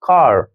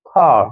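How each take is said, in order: First: It is said with an American accent, r sounded. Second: It is said with a British accent, r dropped. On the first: "American English में देखें तो कैसे बोलेंगे?" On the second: "अब British English में खा, आर को बोल ही नहीं रहे।"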